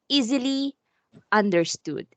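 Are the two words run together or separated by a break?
separated. A stress or break separates the two words. The speaker calls it right. "if it's there's the stress"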